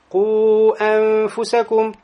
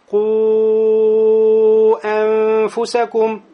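First: The vowel before the hamza is kept short. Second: The vowel before the hamza is held long. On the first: "могу сделать только харакетейн, ограничиться да таксиром, то есть касар. Прочитать быстро" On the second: "Долгота 4 огласовки"

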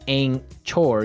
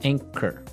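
First: The middle sound is ch, as in church. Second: The middle sound is k, as in kite. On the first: The speaker calls it wrong. "you don't pronounce the C-H as you normally would" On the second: The speaker calls it right. "you would say anchor"

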